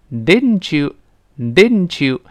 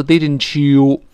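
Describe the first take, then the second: First: Didn't you run together, t and y merging into ch; linked didn't you. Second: Didn't you with a full, long you; slow, stressed didi-n-chyoo, every sound complete; overdone didn't you. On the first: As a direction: slowly say didn't you as didn-chu. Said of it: "跟后面那个u连读". (didn't you连读，t变成ch) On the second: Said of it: "但不要读didn't you". (夸张错读didn't you，you读得很完整) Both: Shown as a demonstration.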